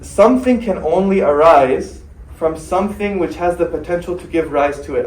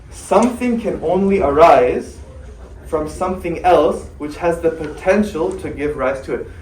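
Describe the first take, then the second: First: It is said at normal speed. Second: It is said slowly.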